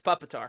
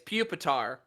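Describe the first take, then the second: First: The first syllable sounds like 'pup'. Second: The first syllable sounds like 'puke'. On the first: "I read it as puppetar" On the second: "I know objectively it's pupitar"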